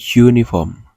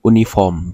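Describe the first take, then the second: First: The word begins with a 'yoo' sound. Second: The word begins with a plain 'oo' vowel. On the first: The speaker calls it right. "tapi uniform" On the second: The speaker calls it wrong. "bukan uniform"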